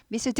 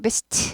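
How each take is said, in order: First: The word ends with a voiced d sound. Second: The word ends with a voiceless t sound. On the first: The speaker calls it wrong. "미스드 하지 않고" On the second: The speaker calls it right. "미스트 발음이 난다는 것"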